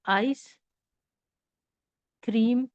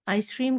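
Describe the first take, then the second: First: The two parts are separated by a break. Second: The two parts are joined without a break. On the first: The speaker calls it wrong. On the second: The speaker calls it right.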